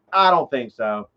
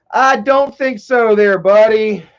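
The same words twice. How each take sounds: First: Said in the usual way. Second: Higher, slow, teasing "no way, buddy"; drawn-out mock scolding of the viewer; mock warning. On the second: Real, not acted. Teasing a viewer who asked about Michael, slow and mock stern.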